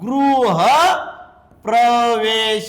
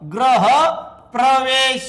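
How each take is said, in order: First: The first syllable is pronounced 'gru'. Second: The first syllable is pronounced 'gra'. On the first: The speaker calls it right. "मग म्हणायचं काय गृह" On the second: The speaker calls it wrong. "या ठिकाणी हे चुकीचं आहे"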